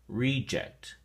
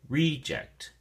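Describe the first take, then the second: First: The stress is on the first syllable. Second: The same.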